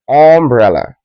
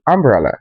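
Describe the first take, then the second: First: Umbrella said with a rounded o, om-brella; wrong o vowel. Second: Umbrella said with an open ah, am-brella; correct ah vowel. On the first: Teacher showing students' mistake, rounded om-brella. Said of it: "not umbrella". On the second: Teacher giving the right form, open am-brella. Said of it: "It's meant to be umbrella". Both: Shown as a demonstration.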